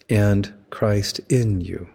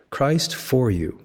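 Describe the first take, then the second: First: Slow, "in" held long and leaned on in "Christ in you"; stress on in. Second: Slow, leaning on "for" in "Christ for you"; stress on for. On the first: Preacher contrasting prepositions, stressing "in". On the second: Preacher contrasting prepositions, stressing "for". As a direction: draw out "for" in "Christ for you", then pause. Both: Shown as a demonstration. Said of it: "Notice the difference between".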